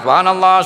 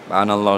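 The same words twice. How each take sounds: First: It is said loudly and strongly. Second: It is said softly and quietly.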